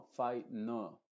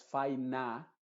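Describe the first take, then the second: First: "fai no" lento, con "no" como vocal neutra; schwa. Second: "fai na" con "na" abierto y claro; A plena. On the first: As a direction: di "fai no" separando sílabas, vocal reducida en "no". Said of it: "normalmente es una schwa". ("fai no" con schwa en la segunda sílaba) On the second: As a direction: di "fai na" lento, con una A de verdad. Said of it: "No es fai na". ("fai na" sin schwa) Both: Shown as a demonstration.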